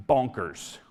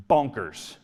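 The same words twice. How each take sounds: The two takes are said the same way.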